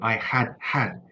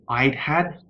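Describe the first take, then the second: First: Both 'had' words are said in full. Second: The first 'had' is contracted onto 'I'. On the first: The speaker calls it wrong. "it probably sounds strange" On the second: The speaker calls it right. "we usually contract the first had with the pronoun"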